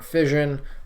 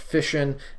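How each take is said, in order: First: The double s is not said as sh. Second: The double s is said as an sh sound. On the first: This sounds more scientific. The speaker calls it wrong. "and not fission" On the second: This is the accepted standard pronunciation. The speaker calls it right. "officially pronounced fission"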